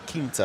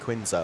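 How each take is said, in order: First: The name has a Portuguese pronunciation. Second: The name has an anglicised pronunciation.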